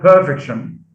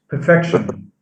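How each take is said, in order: First: The stress is on the first syllable. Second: The stress is on the second syllable. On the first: The speaker calls it wrong. "not perfection" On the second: The speaker calls it right. "it's perfection. So stress is shifted from the first syllable to the second"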